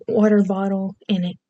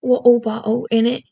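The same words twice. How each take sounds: First: "Water bottle" in an accent with R and T pronounced; accented "Water bottle", each word fully sounded. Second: Hammed-up British "Water bottle", T's dropped, "in it" as innit; cartoonish British glottal stops on "Water bottle". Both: Shown as a demonstration. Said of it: "some very stereotypical ones too".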